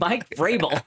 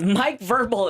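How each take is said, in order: First: The surname begins with the sound 'Vra'. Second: The surname begins with the sound 'Ver'. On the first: This is the real name. The speaker calls it right. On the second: This is the mangled version of the name. The speaker calls it wrong.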